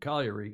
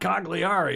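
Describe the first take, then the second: First: The name is said with an Italian-style pronunciation. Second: The name is said with an English-style pronunciation. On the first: The speaker calls it right. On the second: The speaker calls it wrong.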